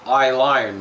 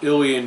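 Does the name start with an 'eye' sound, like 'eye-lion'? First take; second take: yes; no. First: It starts with an 'eye' sound, like 'lion'. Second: It does not start with an 'eye' sound. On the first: The speaker calls it wrong. "I called it I-Lion because that's the way it's written" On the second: The speaker calls it right. "it's pronounced Ilion"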